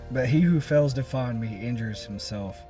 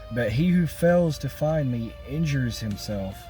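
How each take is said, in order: The two takes are said the same way.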